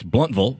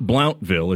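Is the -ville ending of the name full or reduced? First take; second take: reduced; full. First: The ending is said as a reduced 'vul'. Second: The ending is said as a full 'ville'. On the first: The speaker calls it right. "it's Bluntville, and get it right" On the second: The speaker calls it wrong. "It's not Blountville"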